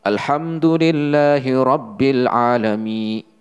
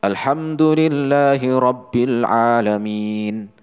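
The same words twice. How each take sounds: First: "Alhamdulillahi Rabbil Alamin" recited with the nun left out; wrong, nun dropped. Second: "Alhamdulillahi Rabbil Alamin" recited slowly, with every letter and the nun sounded; slow, careful Quran recitation with the nun in "Alhamdulillahi Rabbil Alamin"; correct recitation. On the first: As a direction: demo of the mistake, a letter missing from "Alhamdulillahi Rabbil Alamin". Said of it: "nggak dibaca nunnya". (contoh salah, nun "Alhamdulillahi Rabbil Alamin" tidak dibaca)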